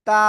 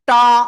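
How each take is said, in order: First: The t is made with the tongue at the teeth. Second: The t is made further back, not at the teeth. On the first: The speaker calls it right. "এই দুই দাঁতের গোড়ায় লাগান" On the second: The speaker calls it wrong. "অনেকে কিন্তু এরকম উচ্চারণ করে ফেলতে পারেন"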